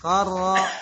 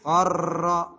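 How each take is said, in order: First: The r is rolled only briefly. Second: The r is rolled long and exaggerated. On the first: The speaker calls it right. "Tapi cukup" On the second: The speaker calls it wrong. "Huruf ra yang ditasydid jangan berlebihan. Qarra. Jangan ya"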